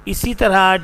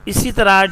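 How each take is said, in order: Both takes have the same delivery.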